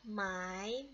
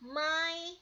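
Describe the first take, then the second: First: It is said with the second tone. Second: It is said with the first tone.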